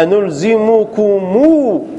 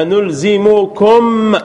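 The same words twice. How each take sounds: First: أنلزمكمو slow, with the final و drawn out long; lengthened final vowel. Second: أنلزمكم said slowly, each syllable apart; slow base form. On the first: Teacher showing vowel lengthening, slow أنلزمكمو with long final vowel. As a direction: stretch the last vowel of أنلزمكمو. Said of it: "هذه للإشباع". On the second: Teacher giving the original form, slow careful أنلزمكم. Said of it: "هذا الأصل". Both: Shown as a demonstration.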